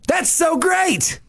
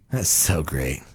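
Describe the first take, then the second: First: It sounds genuinely excited. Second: It sounds dripping with sarcasm.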